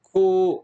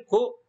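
First: كو slowly, as a held 'koo'; long vowel. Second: كو as a quick, higher 'ku'; one brief beat on كو; short vowel. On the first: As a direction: draw out the vowel in كو. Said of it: "صوت طويل". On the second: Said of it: "هنا صوت قصير". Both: Shown as a demonstration.

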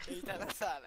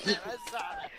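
First: Said in the usual way. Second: High, laughing squeak; squeaky reveal. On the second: Real, not acted. (voz fininha rindo)

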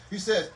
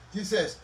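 The two takes are said the same way.

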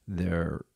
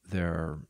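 The two takes are said the same way.

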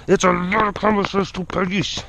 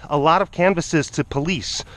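First: Garbled goofy put-on voice; mock silly echo, words smeared. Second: Said in the usual way. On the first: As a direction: repeat it playfully with mangled sounds. Line repeated in silly voice.

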